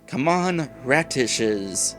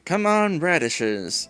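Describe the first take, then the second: First: The last word is said with a clear t sound. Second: The last word is said without a t sound. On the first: The speaker calls it right. "I need to enunciate my T" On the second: The speaker calls it wrong. "I'm saying radish as in the vegetable"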